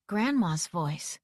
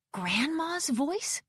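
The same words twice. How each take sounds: First: "Grandma's voice" slow, with a falling, settled end; slow statement. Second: "Grandma's voice" drawn out, rising high on "voice"; disbelieving question. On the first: Recognition, first as a statement. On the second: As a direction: ask "Grandma's voice" slowly in disbelief, pitch climbing. Same words repeated in disbelief. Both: A narrator's reading.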